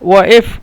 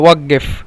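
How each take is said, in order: First: The middle consonant is a glottal stop. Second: The middle consonant is a doubled q sound. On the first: This is the colloquial dialect form. "কিন্তু হামজত এই জন্য বোঝা যাচ্ছে না" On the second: This is how Saudis say it. "ওই সৌদিরা বলে ওয়াক্কেফ"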